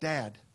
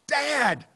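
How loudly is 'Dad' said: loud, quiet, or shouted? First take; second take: loud; shouted. First: The word is said somewhat louder. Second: The word is yelled at full volume. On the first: "she has to say a little bit louder" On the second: "she has to resort to yelling"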